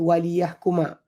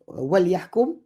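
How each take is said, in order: First: The phrase ends with an added a vowel. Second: The phrase ends on a bare m sound. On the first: It gives a purpose: so that they judge. "dibunyi wali yahkuma" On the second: It is a command: let them judge. "wali yahkum mati"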